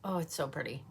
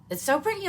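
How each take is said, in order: First: Said in the usual way. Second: Much higher and louder, gushing; squealing with delight at the result; excited squeal. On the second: Real, not acted. Vlogger gushing to viewers about her eye look, excited squeal.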